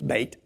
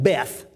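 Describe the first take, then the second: First: It is said with an 'ay' vowel and 't'. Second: It is said with a short 'e' and 'th'. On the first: The speaker calls it right. "It's Bait" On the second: The speaker calls it wrong. "as most people would pronounce it, but that's a mispronunciation"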